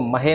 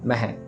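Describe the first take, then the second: First: The word is drawn out with a long vowel. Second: The word is said short and quick. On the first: The speaker calls it wrong. "इसको महे नहीं कहना" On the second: The speaker calls it right. "जल्दी जल्दी बोल के निकल जाना, खींचना नहीं है"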